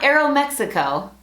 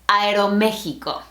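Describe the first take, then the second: First: It is pronounced with English sounds. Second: It is pronounced with Spanish sounds. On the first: The speaker calls it wrong. "Not Aeromexico" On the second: The speaker calls it right. "That's right"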